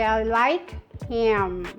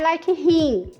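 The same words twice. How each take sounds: First: Him ends with the lips fully closed on m. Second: Him ends in a nasal vowel without lip closure. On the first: The speaker calls it right. "É I like him" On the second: The speaker calls it wrong. "Não é I like him, ok? Nada a ver com o seu rim"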